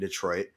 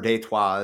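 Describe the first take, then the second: First: The name is said with an English pronunciation. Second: The name is said with a French pronunciation. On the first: This is how the name is said today. "it's fucking Detroit" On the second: This is how the early French settlers said it. "as they pronounced it"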